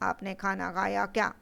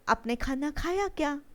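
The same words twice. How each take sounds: First: It is said flatly, like a plain statement. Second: It is said with a questioning intonation. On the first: The listener cannot tell it is a question. The speaker calls it wrong. "अगर मैंने ऐसे पूछा ... समझ में आएगा क्या? नहीं।" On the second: The listener can tell it is a question. The speaker calls it right. "बोलने का एक तरीका होता है"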